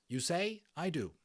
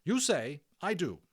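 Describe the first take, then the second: First: Bright Stars repeating. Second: Matron instructing. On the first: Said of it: "that's Bright Stars". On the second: Matron teaching phrase. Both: Acted.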